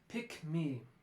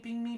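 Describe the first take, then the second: First: The k sound is kept before me. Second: The k sound becomes an ng sound. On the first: The speaker calls it right. "pick me, rather than ping me" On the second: The speaker calls it wrong. "sounds a little more like ping me"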